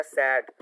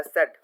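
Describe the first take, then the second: First: "सैड" with an open "a" as in cat; open-vowel SAD. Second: "सैड" said as "sed", rhyming with bed; closed-vowel SED. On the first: Teacher showing both ways, "सैड" with the open vowel. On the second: Teacher showing both ways, "सैड" said like "sed". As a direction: narrow the vowel in "सैड" to short "e". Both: Shown as a demonstration. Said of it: "दोनों तरह से आप इसको pronunciate".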